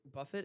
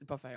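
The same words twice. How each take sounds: First: "buffet" ending in an audible "it"; anglicized BUFFET. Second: "buffet" ending in "ay", silent t; French-style BUFFET. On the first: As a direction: say "buffet" as BUFF-it. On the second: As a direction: say "buffet" as buh-FAY. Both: Shown as a demonstration. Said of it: "What, buffet or buffet?".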